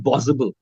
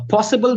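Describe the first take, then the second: First: Arabic-accented "possible", b replacing p. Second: Said in the usual way. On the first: Shown as a demonstration. Trainer imitating Arabic students, b-for-p "possible". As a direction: say "possible" as "bossible", Arabic style. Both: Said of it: "per becomes ber".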